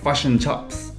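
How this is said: It is said in a New Zealand accent. "Excuse my bad New Zealand accent. New Zealanders say like"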